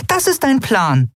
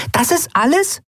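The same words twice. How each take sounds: First: "ist" stressed with a falling tune, slower; "Das ist dein Plan?" falling on "ist", contemptuous; scornful statement. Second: "ist" stressed with a rising disbelieving tune; "Das ist alles?" rising on "ist" in outrage; indignant question. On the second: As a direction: push up on "ist" as you ask "Das ist alles?". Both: A narrator's reading. Nelen outraged at the plan.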